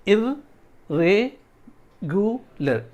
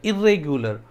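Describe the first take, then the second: First: इर्रेगुलर as four parts: इर, रे, गु, लर; very slow इर्रेगुलर with pauses between syllables; syllable breakdown. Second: Said in the usual way. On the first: Shown as a demonstration. Teacher counting four syllables for students, widely separated. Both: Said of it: "ये चार syllable हो गए".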